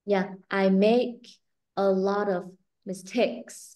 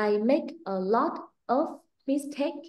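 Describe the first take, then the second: First: The right way, voice lowered. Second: Exaggerated wrong example; mock rising Vietnamese-style tone. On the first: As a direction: voice kept down, slow and smooth on "mistakes". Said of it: "Nhưng mà mình phải đè cái giọng xuống". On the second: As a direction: voice pushed higher on "make", slow and choppy. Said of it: "mình không có trớn cái giọng mình cao lên như vậy". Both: Shown as a demonstration.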